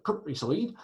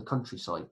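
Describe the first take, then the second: First: Higher, hammed-up West Country lilt; West Country accent. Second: Said in the usual way. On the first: Teacher playing country folk to pupils, in a mock West Country accent. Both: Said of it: "Sorry for the West Country accent".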